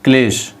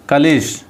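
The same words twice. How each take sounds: First: क्लेश with क and ल joined, klesh; correct spelling said aloud. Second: कलेश with a short vowel between क and ल, ka-lesh; wrong form कलेश said slowly as ka-lesh; wrong spelling said aloud. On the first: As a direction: say क्लेश as one tight syllable, klesh. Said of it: "वो क्लेश होता है". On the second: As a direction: say कलेश as three syllables, ka-le-sh. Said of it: "कलेश नहीं होता". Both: Shown as a demonstration.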